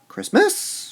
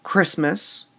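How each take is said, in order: First: ChristMAS, the MAS high and held; overdone slow final MAS on Christmas; stress on last syllable. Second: CHRISTmas, the first syllable punched; stress on first syllable. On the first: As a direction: wrongly punch the end of Christmas. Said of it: "not Christmas". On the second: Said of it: "We stress the Christ in Christmas". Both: Shown as a demonstration.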